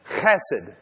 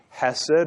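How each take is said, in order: First: The first sound is rasped in the throat. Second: The first sound is a plain, light h. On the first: "you say it with your throat" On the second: "the Americanized version of this word"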